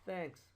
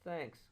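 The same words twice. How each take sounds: The two takes are said the same way.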